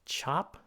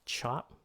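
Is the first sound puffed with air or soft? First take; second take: puffed; puffed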